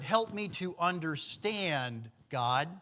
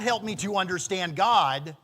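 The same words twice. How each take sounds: First: There is a pause before the word 'God'. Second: The words run on without a pause before 'God'. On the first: The speaker asks God for help understanding. "help me understand, comma, God" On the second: The speaker asks for help understanding God. "Not help me to understand God"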